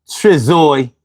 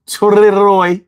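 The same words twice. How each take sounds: First: Trizoy said with a z in the middle, like tri-ZOY; a hesitant Trizoy, the z sound slipping in; first stab at the name. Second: Triroy said with an r in place of the z, tri-ROY; Triroy, fixing the z to an r; corrected name. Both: Real, not acted.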